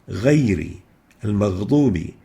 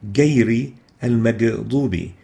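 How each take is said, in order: First: The consonant is a deep gargled gh sound. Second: The consonant is a hard g like English. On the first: The speaker calls it right. "It should be pronounced with إغ" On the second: The speaker calls it wrong. "mistakenly pronounced as"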